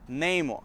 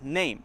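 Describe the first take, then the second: First: The word has two syllables, ending in mo. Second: The word has a single syllable. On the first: "It's been changed to kind of two syllables" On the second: "instead of just name, one syllable"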